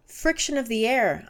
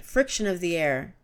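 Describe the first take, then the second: First: Shouted. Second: Said in the usual way. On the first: A narrator's reading. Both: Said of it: "I shouted".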